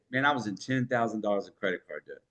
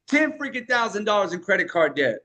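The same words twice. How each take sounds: First: Softer, faster, casual confession; low-key storytelling take; casual confessional. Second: Punchy, emphatic hook delivery. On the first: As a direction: tell it like a quiet personal admission. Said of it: "Or I could say". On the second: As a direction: hit it hard like a hook. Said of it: "it's not what you say, but how you say it". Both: Shown as a demonstration.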